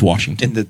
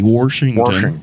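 First: It is said in a polished standard accent. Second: It is said in a folksy rural local accent. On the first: The speaker is appealing to a more sophisticated crowd. "up here at the Newcastle crowd, it's Washington" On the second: The speaker is appealing to rural voters back home. "back home, if you're running in the district south of 40, it's got to be Washington"

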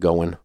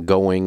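First: The word ends with a clipped 'in' sound. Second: The word ends with a full 'ing' sound. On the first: This is the native Southern pronunciation. The speaker calls it wrong. "all the ings in the South, we don't complete them. It's all ins" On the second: This is the trained, standard pronunciation. The speaker calls it right. "going instead of"

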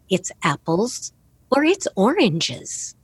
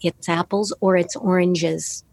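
First: It is said with varied, contrasting pitch. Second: It is said with flat, unvaried pitch.

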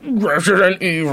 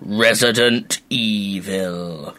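First: It is said in a tinny, robotic Game Boy voice. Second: It is said in a deep booming announcer voice.

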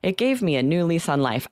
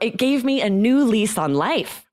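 First: The voice stays flat, in a monotone. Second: The voice sounds lively and excited. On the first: The speaker calls it wrong. "You don't want to say in a monotone" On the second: The speaker calls it right. "You're going to be excited about this"

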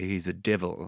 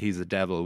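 First: The first vowel of devil sounds like 'ih'. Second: The first vowel of devil sounds like 'eh'. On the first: "like with an I" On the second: "We would never say"

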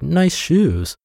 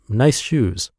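First: It is said in a sarcastic, mocking tone. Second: It is said in a plain, sincere tone. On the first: The compliment is meant as a put-down. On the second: The compliment is meant genuinely.

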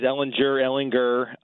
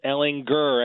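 First: The g in the name is soft. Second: The g in the name is hard, like a growl. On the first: The speaker calls it wrong. "I've heard it both ways" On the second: The speaker calls it right. "but it is Ehlinger, as in Austin Powers, baby. Gurr"

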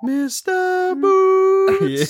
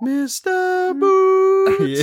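First: It is said in a Simpsons-style put-on voice. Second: It is said in a Simpsons-style put-on voice.

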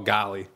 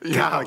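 First: It sounds disappointed and dismayed. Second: It sounds impressed and delighted. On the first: Something bad just happened. "Like he makes an error. Oh" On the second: Something good just happened. "Or he sees someone hit a big home run"

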